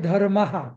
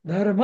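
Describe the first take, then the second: First: The word ends with an added full 'ha' syllable. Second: The word ends with a strong puff of breath. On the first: The speaker calls it wrong. "धर्म हा नाही म्हणायचं" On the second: The speaker calls it right. "श्वास असा जोराने सोडायचा, धर्म असं"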